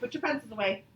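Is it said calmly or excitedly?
calmly. It is said calmly, without much excitement.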